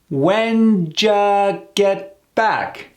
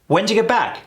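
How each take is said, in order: First: It is said slowly with each part drawn out. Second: It is said quickly and fluidly at natural speed. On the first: "Let's slow that down" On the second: "See how fluid and fast that is?"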